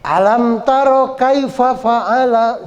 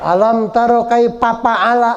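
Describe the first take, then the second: First: Slow, raised chant with f in "kaifa fa'ala"; correct joined recitation. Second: "kaifa fa'ala" with p for every f; wrong recitation. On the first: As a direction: link KAIFA FA'ALA, both with f. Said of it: "sambungin ya". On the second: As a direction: chant it wrongly as kaipa pa'ala. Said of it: "fa'ala ini salah". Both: Shown as a demonstration.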